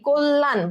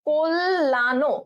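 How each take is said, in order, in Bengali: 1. শব্দটি শেষের 'n'-এ হঠাৎ থেমে যায়। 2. শব্দটি শেষ হয়েছে চূড়ান্ত 'o' স্বরধ্বনি দিয়ে। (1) "যদি আমি হসন্ত দিই তার মানে এখানেই কল্যাণ বলে এখানেই স্টপ হয়ে যাবে" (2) "আমি যদি এই হসন্তটা না দিই তাহলে এটার পূর্ণাঙ্গ উচ্চারণ হবে"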